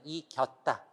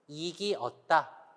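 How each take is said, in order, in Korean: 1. 모음이 합쳐져서 하나의 줄어든 음절이 됩니다. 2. 모음을 각각 따로, 온전히 발음합니다.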